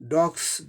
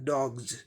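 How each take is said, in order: First: The word ends with an s sound. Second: The word ends with a z sound. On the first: The speaker calls it wrong. "हम लोग साधारणतः डॉग्स बोलते हैं" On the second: The speaker calls it right. "इसका सही उच्चारण डॉग्स, यस का उच्चारण ज जैसे होगा"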